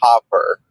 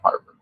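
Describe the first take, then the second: First: The R after the first vowel is dropped. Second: The R after the first vowel is clearly pronounced. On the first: "She goes Hopper, Hopper. She hasn't mastered that yet" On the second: "I love the name Harper"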